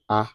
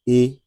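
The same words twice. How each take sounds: First: The letter is named the French way. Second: The letter is named the English way. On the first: The speaker calls it right. "very close to the Yoruba A" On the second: The speaker calls it wrong. "as it is in English"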